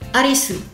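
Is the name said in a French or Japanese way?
Japanese. It ends with an added vowel, as three syllables. "En japonais, du coup, on va prendre dans Sashisu Seso, on va prendre le se"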